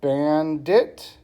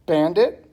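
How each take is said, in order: First: "bandit" slowly split as ban, dit; syllable by syllable. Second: Said in the usual way. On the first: Shown as a demonstration. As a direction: break "bandit" into two separate beats. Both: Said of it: "two syllables".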